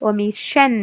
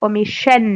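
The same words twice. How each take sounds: No difference in how they are said.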